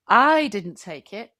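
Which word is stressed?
I. The word I carries the main stress. Someone else took it. "That means someone else did"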